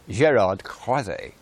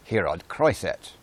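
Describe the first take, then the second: First: The name is given a French pronunciation. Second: The name is given a Dutch pronunciation. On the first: The speaker assumed the man was French. The speaker calls it wrong. "I thought French pronunciation to be appropriate" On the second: The man is actually Dutch. The speaker calls it right. "he's Dutch, ... should actually be pronounced"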